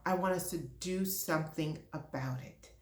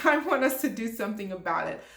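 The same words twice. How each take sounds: First: Softer, said almost to herself; a quieter, held-back version before the passion breaks through; quiet first take. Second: Passionate. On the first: To her HR leaders, quietly firm. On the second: To diversity leaders, openly passionate and laughing. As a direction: own the passion and push it out. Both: Real, not acted. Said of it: "Yes, I'm being passionate".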